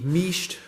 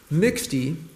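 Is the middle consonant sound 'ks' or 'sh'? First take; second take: sh; ks. First: The middle consonant is pronounced as sh. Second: The middle consonant is pronounced as ks.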